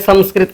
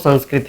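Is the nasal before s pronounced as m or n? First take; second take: m; n. First: The nasal before s sounds like m. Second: The nasal before s sounds like n. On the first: The speaker calls it wrong. "सामान्य बात है संस्कृत कह देना" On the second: The speaker calls it right. "वास्तव में तो संस्कृत ही है"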